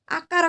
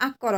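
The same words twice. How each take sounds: First: ଆକାର with a long aa in the middle, said as the wrong form. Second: ଆକର with a short a in the middle, said as the correct form. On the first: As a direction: stretch the middle vowel in ଆକାର on purpose. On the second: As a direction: keep the middle vowel of ଆକର short and clipped. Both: Shown as a demonstration. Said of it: "ଆକାର କହିବନି".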